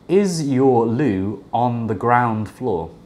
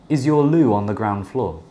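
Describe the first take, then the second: First: The words are separate, with no 'w' sound between 'loo' and 'on'. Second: The words are linked, with a 'w' sound between 'loo' and 'on'. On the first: "when I don't connect the words" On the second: "with connected speech"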